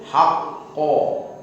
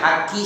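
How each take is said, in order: First: A deep, hollow q with an o-like vowel. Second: A light k with a plain, thin i vowel. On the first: The speaker calls it right. "agak diapakan rongga mulutnya. Mirip o" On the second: The speaker calls it wrong. "Haki salah"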